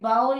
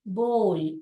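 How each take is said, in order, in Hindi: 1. स्वर 'cow' में 'ow' की तरह सरकता है। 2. स्वर 'go' में 'oh' जैसा सुनाई देता है। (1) "बाउल नहीं होता है।" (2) "इसका करेक्ट प्रोनाउंसिएशन क्या है?"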